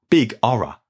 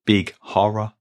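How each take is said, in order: First: Horror said as 'Orror, no H; dropped H. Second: Horror with a clear initial H; H sounded. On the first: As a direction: drop the H at the start of Horror. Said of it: "this means big horror". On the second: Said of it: "there's an apostrophe at the beginning". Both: Shown as a demonstration.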